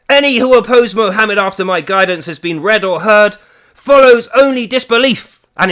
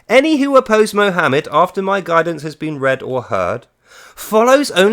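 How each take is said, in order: First: It is said in a put-on voice. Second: It is said in his normal voice.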